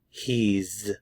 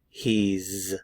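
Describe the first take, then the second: First: It is contracted into one syllable. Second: It is contracted into one syllable.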